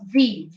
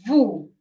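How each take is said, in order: First: "V" said as "vee"; "V" rhyming with "tea"; English letter name. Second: "vu" said as "voo"; "vu" rhyming with "too"; Italian letter name. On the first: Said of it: "Not V". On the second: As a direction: say "vu" with an oo, not ee. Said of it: "You have to put that vu inside". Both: Shown as a demonstration.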